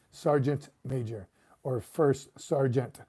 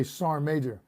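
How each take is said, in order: First: "Sergeant Major or First Sergeant", slow, every syllable of "Sergeant" said out; full sergeant. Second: "Sergeant Major" said fast as "Sarm-major", sergeant swallowed; clipped sergeant major. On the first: Contrasting the full "Sergeant" with his clipped habit. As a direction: spell out "Sergeant" fully and slowly. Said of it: "they don't pronounce sergeant all the way". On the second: Showing viewers how he clips "Sergeant Major". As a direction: run "Sergeant" into one quick syllable. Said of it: "Kinda like I say". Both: Shown as a demonstration.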